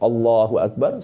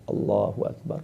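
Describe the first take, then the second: First: It is said in a full, audible voice. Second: It is said in a soft, slight whisper. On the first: The prayer leader says it for everyone to hear. "imam mengucapkan takbiratul ihram" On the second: A follower says it only loud enough to hear himself. "dengan suara yang agak sedikit berbisik"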